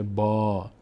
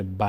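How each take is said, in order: First: با as long, back "baa"; long vowel. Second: ب as short "ba"; short vowel. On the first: Teacher shows the strengthened fatha, long "baa". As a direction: open and stretch با to "bɔɔ". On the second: Teacher shows what it no longer is, short "ba". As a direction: say ب with a brief front a. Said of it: "نمیشه". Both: Shown as a demonstration.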